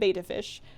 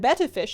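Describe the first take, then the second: First: The first vowel is long, as in 'bait'. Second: The first vowel is short, as in 'bet'. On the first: The speaker calls it wrong. "not a beta fish" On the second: The speaker calls it right. "It is a betta fish"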